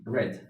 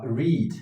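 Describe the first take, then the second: First: "read" said like "red", with a short e; past-tense pronunciation. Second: Said in the usual way. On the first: Shown as a demonstration. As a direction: say "read" to rhyme with "bed". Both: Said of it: "the simple past form".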